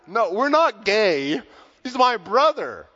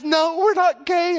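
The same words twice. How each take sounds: First: Loud, slow and higher denial; loud protest. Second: Much higher, louder and slow, insisting; shouted denial. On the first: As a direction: say it loud so the whole line hears. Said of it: "he says very loudly". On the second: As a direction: belt it out the second time, now exasperated. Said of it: "and he says". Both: Retold or imitated.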